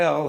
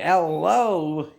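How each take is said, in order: First: No 'o' vowel follows the 'El'. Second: An 'o' vowel follows the 'El'. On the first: It says he is our God. The speaker calls it right. "But if you say El, he knew" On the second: It says there is no God. The speaker calls it wrong. "if you say El Lo, he knew"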